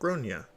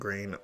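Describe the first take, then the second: First: The first vowel sounds like 'o' in gone. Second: The first vowel sounds like 'ay' in grain. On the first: This is how the name is usually said in Ireland. "in Ireland, they typically pronounce it like Gronya" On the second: This is how the child's family says the name. "nor do I like the way the pronunciation was butchered"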